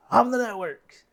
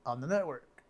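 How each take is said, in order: First: High, loud proud shout. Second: Said in the usual way. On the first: Acted. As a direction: yell it out triumphantly. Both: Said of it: "And then the one says".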